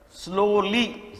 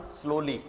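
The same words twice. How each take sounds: First: Slowly drawn out. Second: Said in the usual way. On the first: Shown as a demonstration. Teacher to class, drawing slowly out slowly. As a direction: stretch slowly out slowly with a rising end. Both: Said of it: "slow से क्या बना?".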